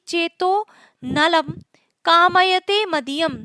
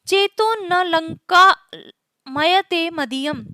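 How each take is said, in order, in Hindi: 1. विभाजन 'nalam' के बाद, 'kamayate' से पहले है। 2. विभाजन 'na' के बाद, 'lanka' से पहले है। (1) "अगर इस तरह से इसको बोले" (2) "अगर इसको इस तरह से बोले"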